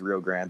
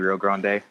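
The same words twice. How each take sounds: First: It is said in an anglicized Texan way. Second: It is said the Spanish way.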